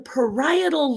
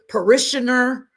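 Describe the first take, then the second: First: The word is said as 'pa-RYE-e-tal'. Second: The word is said like 'parishioner'. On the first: The speaker calls it right. "It's the parietal lobe" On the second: The speaker calls it wrong. "how you're pronouncing it"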